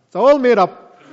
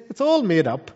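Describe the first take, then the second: First: Louder, mocking voice of a lying demon; scoffing demon. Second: Said in the usual way. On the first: Preacher voicing demons scoffing at scripture, louder mocking sneer. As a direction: sneer it out as the deceiver. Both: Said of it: "They say".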